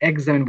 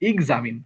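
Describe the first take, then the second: First: The word begins with an 'eks' sound. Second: The word begins with an 'iks' sound. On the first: The speaker calls it wrong. "বলা যাবে না" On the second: The speaker calls it right. "বলা যাবে এক্সামিন"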